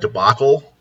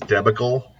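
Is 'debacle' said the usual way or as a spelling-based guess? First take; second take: usual; spelling-based. First: The word has its usual spoken pronunciation. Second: The word is sounded out from its spelling. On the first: The speaker calls it right. "like the word debacle" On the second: The speaker calls it wrong. "I always read it as debacle"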